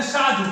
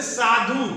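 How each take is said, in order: First: साधु said as शाधु; wrong-example साधु beginning with sh; स turned into श. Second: साधु with a clear hissed स; careful teaching take of साधु, initial s; standard साधु with स. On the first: Retold or imitated. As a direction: mimic the mistake, sh at the start of साधु. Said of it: "साधु नहीं होता है". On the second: Shown as a demonstration. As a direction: model साधु starting on s, not sh. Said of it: "लोग कहते हैं साधु".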